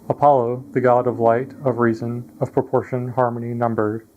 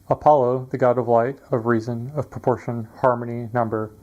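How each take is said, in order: Both takes have the same delivery.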